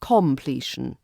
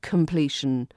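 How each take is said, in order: First: "completion" with a full kom; wrong strong vowel. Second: "completion" with kuhm-PLEE-shun; schwa completion. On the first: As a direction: overpronounce the first o. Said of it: "not completion". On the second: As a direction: reduce the first vowel. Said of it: "we hear it as". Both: Shown as a demonstration.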